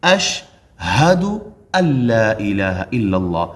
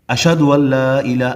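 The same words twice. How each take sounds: First: اشہدو with a clear h, chanted slowly; correct chanted ash-hadu. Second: اشہدو said without the h, as ashadu; wrong ashadu. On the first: Teacher models the correct adhan line, slow chant. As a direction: chant the whole phrase with the h sounded. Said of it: "ہا بھی ہے اس میں". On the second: Teacher imitates a common mistake, mock error. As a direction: drop the h in اشہدو. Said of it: "اشہدو نہیں". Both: Shown as a demonstration.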